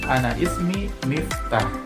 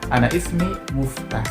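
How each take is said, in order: First: The name's first vowel is an 'i' sound. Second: The name's first vowel is a 'u' sound. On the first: "kalau di Mesir itu bukan Miftah" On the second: "lahjanya itu menjadi Muftah"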